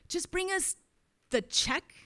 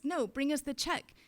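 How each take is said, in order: First: It is said weirdly, like a secret code. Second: It is said in a plain, ordinary way.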